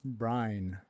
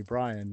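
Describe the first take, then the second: First: "Brine" as one syllable, rhyming with "line"; "Brine" like salt water; Southern "Brian". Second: "Brian" in two syllables, BRY-un; two-beat "Brian"; standard "Brian". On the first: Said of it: "They call me". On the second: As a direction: say "Brian" with both vowels, "Bry-an". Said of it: "people don't call me Brian". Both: Shown as a demonstration.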